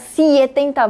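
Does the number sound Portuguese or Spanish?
Portuguese. It is said with a Portuguese pronunciation. The speaker calls it wrong. "você não fala 70"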